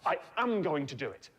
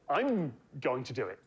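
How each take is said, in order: First: Full 'am' is stressed for emphasis. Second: Contracted 'I'm' is awkwardly stressed.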